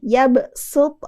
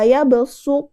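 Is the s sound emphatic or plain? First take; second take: plain; emphatic. First: The s is a plain, light s with spread lips. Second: The s is a heavy, emphatic s with rounded lips. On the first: "Sin, ... Bacanya agak sambil nyengir" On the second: "Kalau shad, kita agak monyong sedikit"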